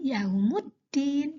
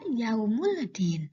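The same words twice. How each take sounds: First: The l merges into the following d. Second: The l sound is pronounced clearly. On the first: The speaker calls it right. "tetapi yaumuddin" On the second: The speaker calls it wrong. "tidak dibaca yaumuddin"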